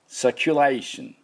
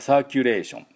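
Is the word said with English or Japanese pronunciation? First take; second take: English; Japanese. First: It is said with English pronunciation and stress. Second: It is said with flat Japanese katakana pronunciation. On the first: The speaker calls it right. "実際はですね、サーキュレーションっていう音になります。サーキュライのところにアクセントがあります" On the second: The speaker calls it wrong. "日本ちょっとカタカナっぽい読み方をしますよね"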